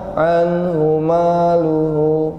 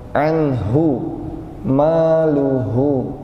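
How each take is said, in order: First: The h sound is cut short and barely heard. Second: The h sound flows out with audible breath. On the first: The speaker calls it wrong. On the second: The speaker calls it right. "Rokhawah itu mengalir suaranya"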